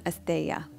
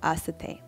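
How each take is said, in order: First: The word is pronounced like asteya. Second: The word is pronounced like asate. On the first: This is the common pronunciation. "a lot of you probably um, pronounce this one asteya, and I used to too" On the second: This is the pronunciation now preferred. "So asate"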